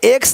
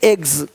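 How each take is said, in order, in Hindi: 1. यह शब्द अघोष ks ध्वनि से खत्म होता है। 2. यह शब्द घोष gz ध्वनि से खत्म होता है। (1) "एक्स नहीं" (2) "ज का साउंड"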